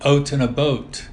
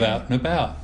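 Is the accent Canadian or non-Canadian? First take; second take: Canadian; non-Canadian. First: It is spoken in a Canadian accent. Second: It is spoken in a non-Canadian accent. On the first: The speaker is from Canada. "if they're Canadian, they say" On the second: The speaker is not from Canada. "instead of"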